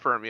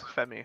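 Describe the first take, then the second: First: The R sound is pronounced in the word. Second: The R sound is silent in the word. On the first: The speaker calls it wrong. "it's not Fermi" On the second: The speaker calls it right. "I just pronounce it Femi"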